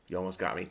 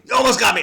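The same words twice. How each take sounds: First: Said in the usual way. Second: Higher and louder "You almost got me"; mock accusing, louder. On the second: Shown as a demonstration. Teasing the crossword for nearly fooling him, loud mock call-out.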